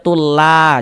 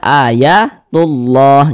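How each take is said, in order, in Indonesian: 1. Bunyi L pada "Allah" tipis dan ringan. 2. Bunyi L pada "Allah" tebal dan berat. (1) "jangan dibaca tulla, jangan. Tapi dibaca tebal" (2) "dibaca tebal, dibaca tafkhim. Maka dibaca ayatullah"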